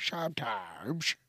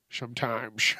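First: A slow, softer "Sometimes." redoing the crack; repeating the crack. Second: A cracked, slurred "Sometimes."; voice cracking. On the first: Shown as a demonstration. He replays his own voice crack for listeners, slow and soft. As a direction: slowly redo "Sometimes." with the cracked sound. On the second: Real, not acted. Late-night podcaster, tired, voice cracks on a word. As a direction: let "Sometimes." crack and slur. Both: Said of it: "Did you hear that?".

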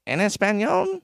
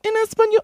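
First: Lower teacher take. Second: Very high squeaky mock teacher. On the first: Retold or imitated. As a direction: say it like a calmer teacher. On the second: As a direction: squeak the order like a prissy teacher. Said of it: "She was like".

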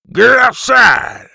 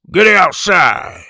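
First: High, slow, louder gruff roar; louder gruff shout. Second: Slow, loud, gruff bellow; gruff shout. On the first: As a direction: bellow it even harder, mouth full of marbles. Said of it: "the man repeated". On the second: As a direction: bark it out like a mouthful of marbles. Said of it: "the man shouted". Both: Acted.

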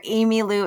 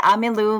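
First: "Amy Lou" said the American way, opening on "ay"; American pronunciation. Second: "Amy Lou" said the Filipino way, opening on "ah"; Filipino pronunciation. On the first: Guest accepting the easier name, "Amy Lou" as American "AY-mee-loo". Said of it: "but since I grew up here". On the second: Guest showing host her name, "Amy Lou" as Filipino "Ah-mee-loo". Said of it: "if you're Filipino, you would say". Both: Shown as a demonstration.

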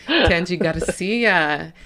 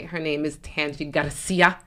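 First: Tangi Garcia drawn out slowly, every syllable stretched; slow grand announcement. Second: Garcia with the R rolled as a quick tap. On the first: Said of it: "right on cue". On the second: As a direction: roll the r in Garcia, Spanish style. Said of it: "I rolled the R just for you". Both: Shown as a demonstration.

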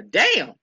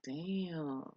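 First: "Damn!" blurted out louder, falling sharply; a startled, punchy "Damn!" at someone's age; retold surprised damn. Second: "Damn." said much softer and dropped low; lowered voice. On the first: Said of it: "that ain't the damn you said earlier". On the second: Retold or imitated. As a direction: murmur "Damn." quietly, as if taking it back. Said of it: "started lowering his voice".

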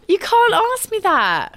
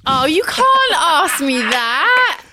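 First: High protest. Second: Laughing, drawn-out protest; half-laughing can't-ask-me-that. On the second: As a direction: laugh through the refusal, slowly. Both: Real, not acted. Protesting impossible choice.

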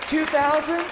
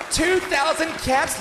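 First: Light rising ask for a bid; questioning bid call. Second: High, slow, shouted bid; auctioneer shout. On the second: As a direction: belt out the winning bid. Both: Acted. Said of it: "auctioneer raises bid".

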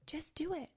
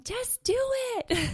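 First: Softer and higher, a gentle nudge; soft, higher urging. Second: Much higher and louder, a booming order; God's loud command. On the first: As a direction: coax them quietly instead of commanding. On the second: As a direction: call it out big, God urging you forward. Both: Acted. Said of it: "And God saying".

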